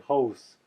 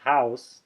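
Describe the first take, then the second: First: The vowel sounds like an open oh. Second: The vowel glides like American ow. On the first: "they say hose" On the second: "as an American might say"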